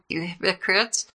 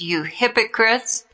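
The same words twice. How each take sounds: First: It is said softly and mildly. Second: It is said forcefully and angrily. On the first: The speaker calls it wrong. "Do you think I said this gently?" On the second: The speaker calls it right. "Isn't that more like it? ... you sound angry"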